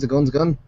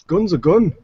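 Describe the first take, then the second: First: Lightly voiced little guy relaying a verdict; guy at the desk. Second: Big-guy voice, pitched up and louder; loud, higher verdict from a big guy. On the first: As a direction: pass the verdict along in a lightly acted voice. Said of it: "and the guy goes". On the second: Acted. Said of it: "the big guy kinda takes it".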